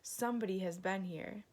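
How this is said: It is growled in an agitated voice.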